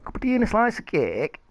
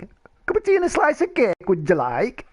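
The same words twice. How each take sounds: First: Said in the usual way. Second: High, fast, put-on posh voice; prim English host, sped up and shrill; mock posh voice. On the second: Mock-posh take on tea phrase.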